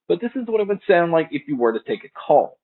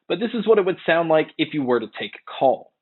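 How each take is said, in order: First: The voice sounds a little warmer. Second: The voice sounds brighter and less warm. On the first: "They do sound a little bit warmer in comparison to the AirPods Pro" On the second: "here is a mic test using the AirPods Pro"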